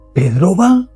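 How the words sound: It is said with a surprised tone. The speaker did not expect Pedro to go. "estoy manifestando sorpresa"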